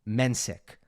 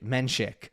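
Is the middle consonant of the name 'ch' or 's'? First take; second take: s; ch. First: The middle consonant is a plain 's' sound. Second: The middle consonant is a 'ch' sound. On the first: The speaker calls it wrong. "His A T P profile, the pronunciation, it's Mensik" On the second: The speaker calls it right. "And it is indeed Menchik"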